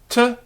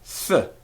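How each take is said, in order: First: The consonant is a full stop with closure. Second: Air flows continuously through, like a soft th.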